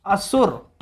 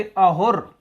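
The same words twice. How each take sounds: First: असुर said slowly with a clear s sound; असुर, spelled out slowly with a crisp s. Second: अहुर said slowly, h where the s of असुर would be; Iranian ha for sa. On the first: Teacher slowly shows students the word असुर with a clear s. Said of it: "ईरानी से बोला जाए असुर बोले". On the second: Teacher imitates how Iranians said अहुर, h in place of s. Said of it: "सा को हा उच्चारित करेंगे". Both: Shown as a demonstration.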